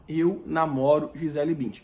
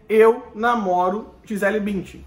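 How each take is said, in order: First: It is said very quietly. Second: It is said at normal loudness.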